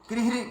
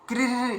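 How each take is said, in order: The two takes are said the same way.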